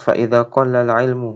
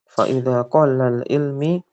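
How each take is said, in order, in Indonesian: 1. Kata 'ilm' berakhir dengan vokal u. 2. Kata 'ilm' berakhir dengan vokal i. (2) "Kenapa majrur?"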